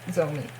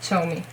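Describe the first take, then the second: First: The name begins with a z sound. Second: The name begins with a ch sound. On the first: The speaker calls it wrong. "it wasn't Zomi" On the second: The speaker calls it right. "It's definitely with Ch"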